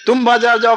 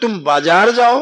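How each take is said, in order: First: The stress falls on the word तुम. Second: The stress falls on the word बाजार. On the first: Only you should go, nobody else. "अगर जोड़ दिया कि मैं तुम ही जाओ" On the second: Go to the market and nowhere else. "अर्थात और कहीं ना जाओ"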